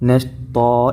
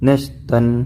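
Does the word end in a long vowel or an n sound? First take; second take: long vowel; n sound. First: The word ends on a long open vowel. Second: The word ends with a final n sound. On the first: The speaker calls it right. "നശ്താ എന്ന് പറഞ്ഞാണ് നിർത്തേണ്ടത്" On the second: The speaker calls it wrong. "ഒരിക്കലും നശ്തൻ എന്ന് പറഞ്ഞ് നിർത്തരുത്"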